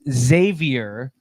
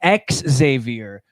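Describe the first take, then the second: First: The name begins with a 'z' sound. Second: The name begins with an 'ex' sound. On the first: This is the other person's name. "You had to put a Z in it" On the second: This is the speaker's own name. "There's a difference in the pronunciation there"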